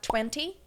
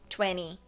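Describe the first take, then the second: First: The middle T is a strong, clear T. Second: The middle T is softened or altered. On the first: "ao invés de falar twenty" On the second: "Essa alteração ela é mais americana"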